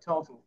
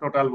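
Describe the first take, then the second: First: The second vowel is reduced to a schwa. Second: The second vowel is a full open vowel. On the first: The speaker calls it right. "ওরা টোটাল উচ্চারণ করে total বলেছে" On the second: The speaker calls it wrong. "তোমরা টোটাল বলতেছো"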